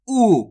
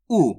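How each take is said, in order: First: "ऊ" drawn out with a little force; long stressed vowel. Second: "ऊ" kept short, barely stretched; short vowel. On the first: Teacher introducing the big ऊ, stretched "ऊ". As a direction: hold and lean into a long "ऊ". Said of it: "इसके उच्चारण में थोड़ा जोर लगता है". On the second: Teacher showing the small ऊ, short "ऊ". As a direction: let go of "ऊ" early, with no force. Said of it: "इसका उच्चारण कम खींच के होता है". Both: Shown as a demonstration.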